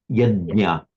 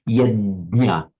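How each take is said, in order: No difference in how they are said.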